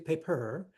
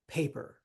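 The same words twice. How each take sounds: First: The stress is on the second syllable. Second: The stress is on the first syllable. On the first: The speaker calls it wrong. "We don't say paper" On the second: The speaker calls it right. "the stress is on the first syllable. Like these"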